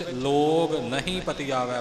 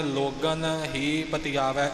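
First: ਲੋਗ ਨਹੀਂ split, with a clear ਨਹੀਂ after ਲੋਗ; slow, split as ਲੋਗ ਨਹੀਂ ਪਤੀਆਵੈ; main word split. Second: ਲੋਗਨ ਹੀ read as two words, ਲੋਗਨ then ਹੀ; slow, split as ਲੋਗਨ ਹੀ ਪਤੀਆਵੈ; alternate word split. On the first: Teacher shows the main reading ਲੋਗ ਨਹੀਂ, slowly. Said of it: "ਪ੍ਰਮੁੱਖ ਰੂਪ ਵਿੱਚ". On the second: Teacher shows the alternate reading ਲੋਗਨ ਹੀ, slowly. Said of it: "ਪਦ ਛੇਦ ਵਾਲਿਆਂ ਨੇ". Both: Shown as a demonstration.

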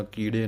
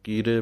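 First: ਕੀੜੇ with a retroflex flapped ṛ, as the mistake; wrong pronunciation. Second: ਕੀਰੇ with a plain r, not a flapped ṛ; correct pronunciation. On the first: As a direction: flap the r into ṛ as people wrongly do. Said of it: "ਕੀੜੇ ਨਹੀਂ ਕਹਿਣਾ". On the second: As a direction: say ਕੀਰੇ with a clean r sound. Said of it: "ਰਾਰੇ ਦੇ ਨਾਲ". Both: Shown as a demonstration.

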